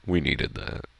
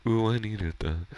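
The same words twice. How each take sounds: First: Said in the usual way. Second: Higher, lightly put-on cartoon voice; playful high character quote; Patrick voice. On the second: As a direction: imitate a cartoon sidekick, pitched up. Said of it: "try to go to the Patrick voice".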